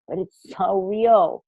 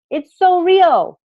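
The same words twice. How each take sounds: First: Said in the usual way. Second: "so" drawn out high and loud; theatrical stress on so. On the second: Shown as a demonstration. Coach lands "so" dramatically for the group. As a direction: stretch "so" slowly, way up. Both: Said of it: "I know I'm being theatrical with this".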